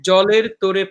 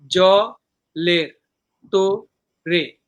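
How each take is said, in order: First: Said in the usual way. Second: "জলের তোরে" very slow, broken into জ, লের, তো, রে; syllable by syllable. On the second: Shown as a demonstration. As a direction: pause after each syllable of "জলের তোরে". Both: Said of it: "এই হলো চারটা সিলেবল".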